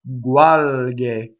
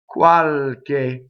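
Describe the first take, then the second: First: The consonants are fully voiced. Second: The consonants are only slightly unvoiced. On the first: "So now I voiced everything" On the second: "I just do enough to unvoice it"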